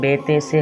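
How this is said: The letter names use Urdu vowels: be, te, se. The speaker calls it wrong. "Urdu तलफ़्फ़ुज़ से परहेज़ करें, यानी कि बेते से हरगिज़ ना पढ़ें"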